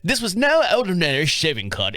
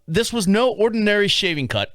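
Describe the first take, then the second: First: It is said in an imitated, different accent. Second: It is said in the speaker's normal accent.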